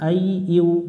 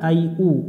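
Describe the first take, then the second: First: The last syllable starts with a y glide. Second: The last syllable is a plain u sound. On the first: The speaker calls it right. "উ পড়া যাবে না" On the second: The speaker calls it wrong. "অনেকজনে ভুল করে আই উ"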